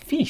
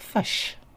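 First: The vowel is a clear short i sound. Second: The vowel is a central, uh-like sound. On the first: This is how Australians say it. "But in Australia sounds fish" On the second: This is how New Zealanders say it. "which in New Zealand sounds like fush"

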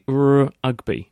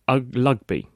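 First: The word starts with a clear R sound. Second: The word starts with a vowel, no R sound. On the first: The speaker calls it right. "well, say Rugby" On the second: The speaker calls it wrong. "he would say Ugby"

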